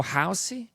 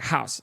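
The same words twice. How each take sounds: First: "housey" with a clear ee ending; "housey", two syllables, Brazilian-style; extra final vowel. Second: "house" cut off right at the s; "house" as one sharp syllable; sharper ending. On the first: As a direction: lift into an added ee on "housey". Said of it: "It doesn't go housey". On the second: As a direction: end "house" on the s, no added vowel. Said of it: "she kinda ends it at house". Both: Shown as a demonstration.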